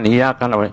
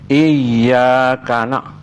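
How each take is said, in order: First: The y sound is short and single. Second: The y sound is held long and doubled. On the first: The speaker calls it wrong. "jangan iyaka na" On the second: The speaker calls it right. "bacaan sabdu tak boleh ditakhfifkan"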